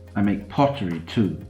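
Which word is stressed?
pottery. The stress falls on the word pottery. Pottery is made, not only guitars. "I don't only make guitars"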